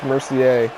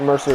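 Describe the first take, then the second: First: The name is said as Mercier. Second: The name is said as Mercer. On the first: The speaker calls it right. "it's Mercier" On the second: The speaker calls it wrong. "It's not Mercer"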